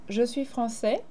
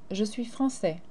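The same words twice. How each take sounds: The two takes are said the same way.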